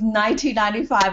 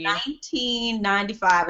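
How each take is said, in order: First: It is said at a quicker, normal pace. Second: It is said more slowly and deliberately.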